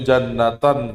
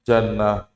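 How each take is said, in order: First: The word ends with a full '-atan' ending. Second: The word ends with a short stopped 'ah'. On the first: The word is read without stopping on it. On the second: The reader stops on the word.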